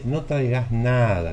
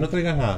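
First: The final vowel of nada is drawn out. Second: The final vowel of nada is kept short. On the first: You actually have to bring something. "¿Ve cómo hay una larga en la A?" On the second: You really do not need to bring anything. "Ese es otro tono de voz"

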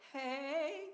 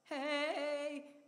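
First: The pitch rises at the end. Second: The pitch does not rise at the end. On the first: "It went up at the end" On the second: "before, it was like"

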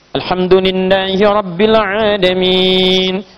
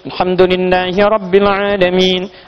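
First: The long vowels are held moderately, medium pace. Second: The long vowels are held briefly, recited quickly. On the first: "Bisa mutawassit 4 harakat. Ya sekitar 1-2 detik" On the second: "2 harakat, hadar namanya"

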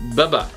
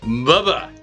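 First: It is said in a flat tone. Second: It is said in a happy tone.

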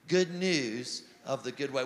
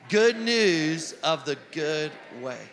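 First: It is said in a plain, calm way. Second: It is said with lively, excited energy.

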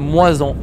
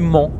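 First: The pronoun group is said as two syllables. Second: The pronoun group is said as one syllable. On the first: The speaker calls it wrong. "on ne dit pas moi-en" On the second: The speaker calls it right. "On dit m'en"

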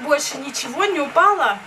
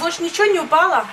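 First: It is said slowly, almost syllable by syllable. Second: It is said at a normal, fluent pace.

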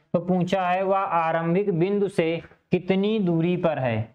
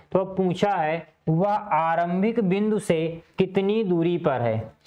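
Both takes have the same delivery.

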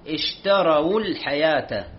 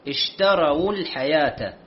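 No difference in how they are said.

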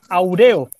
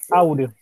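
First: The stress is on the middle syllable. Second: The stress is on the first syllable. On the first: The speaker calls it wrong. "si fuera grave sería aureo" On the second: The speaker calls it right. "Se carga la voz en au"

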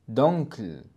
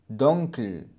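The two takes are said the same way.

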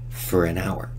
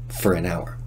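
First: The word 'for' is unstressed and reduced to 'fur'. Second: The same.

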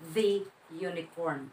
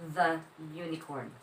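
First: 'The' is pronounced 'thee', as before a vowel. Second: 'The' is pronounced 'thuh', as before a consonant. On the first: The speaker calls it wrong. "Hindi po siya the unicorn" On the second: The speaker calls it right. "but the unicorn"

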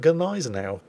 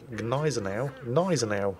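First: The initial G is pronounced. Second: The initial G is silent. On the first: "So I started calling it Gneisenau" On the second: "didn't pronounce the G"

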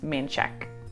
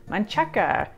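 First: The name ends with a k sound. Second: The name ends with a final vowel sound. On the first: This is how locals say the name. The speaker calls it right. "but in Austin, no, it's Manchek" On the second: This is how the spelling suggests reading it. The speaker calls it wrong. "This looks like it's a really fun word to say"

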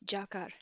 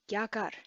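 First: The word starts with a 'j' sound. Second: The word starts with a 'gy' sound. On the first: This is the pronunciation of the eastern province. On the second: This is the pronunciation heard outside the eastern province.

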